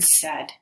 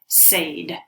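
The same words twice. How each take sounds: First: The vowel sounds like the one in bed. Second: The vowel sounds like the one in made. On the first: The speaker calls it right. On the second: The speaker calls it wrong.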